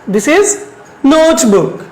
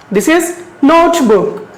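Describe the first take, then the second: First: Said in the usual way. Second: This is notebook very slow, a little higher; slow model reading. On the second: Shown as a demonstration. Teacher modelling notebook slowly for the class. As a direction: pronounce notebook slowly so pupils can follow. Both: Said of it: "can you pronounce it?".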